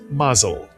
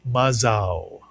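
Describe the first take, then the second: First: The word is said with Yiddish pronunciation. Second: The word is said with Hebrew pronunciation. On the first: "in Yiddish, the word is mazel" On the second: "But in Hebrew, it is mazal"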